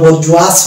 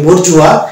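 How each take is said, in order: First: The word ends with an s sound. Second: The word ends without an s sound. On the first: The speaker calls it wrong. "এস এর যদি উচ্চারণ আসতো তাহলে এটা হলো বর্জুয়াস হতো" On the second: The speaker calls it right. "এটা আমরা উচ্চারণ করি বর্জুয়া"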